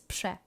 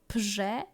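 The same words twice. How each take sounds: First: The rz is said quickly as one sh-like sound. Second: The r and z are said as separate sounds. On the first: The speaker calls it right. "you say it fast and it sounds like S A S C" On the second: The speaker calls it wrong. "instead of prze"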